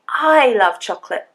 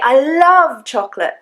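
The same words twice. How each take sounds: First: The first word carries the stress. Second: The second word carries the stress. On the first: The speaker, not someone else, loves it. "I mean me, not you" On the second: The feeling is strong, not mere liking. "I don't mean that I just like it"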